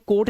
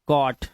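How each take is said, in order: First: The vowel is a long 'oh' sound. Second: The vowel is a short 'aw' sound. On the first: The speaker calls it wrong. "अब इसे कोट नहीं पढ़ना है" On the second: The speaker calls it right. "ये ओ हो गया"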